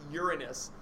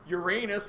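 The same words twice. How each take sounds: First: It uses the newer pronunciation of the name. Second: It uses the older pronunciation of the name. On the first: "the newer name, people call it" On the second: "like I was taught when I was a kid"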